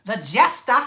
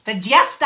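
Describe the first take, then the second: First: "The Jester" again in a louder Boston accent, teasing his wife. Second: "The Jester" in a louder light Boston accent. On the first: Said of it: "How you like that, Murph?". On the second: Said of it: "You gotta say it like that, like a, a Bostonian". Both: Shown as a demonstration.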